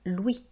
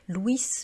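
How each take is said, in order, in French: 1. Le s final reste muet. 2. Le s final se prononce. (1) "on dit bien Louis" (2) "on ne dit pas Louis"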